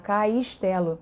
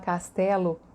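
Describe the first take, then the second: First: The vowel before s gets an added i glide. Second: The vowel before s has no added i glide. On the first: "carioca fala" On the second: "Em vez de falar castelo"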